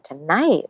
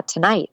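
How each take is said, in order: First: Retold surprised question, pitch swooping up; puzzled surprise. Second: Said in the usual way. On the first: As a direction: echo it back in mild disbelief. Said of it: "That's so strange".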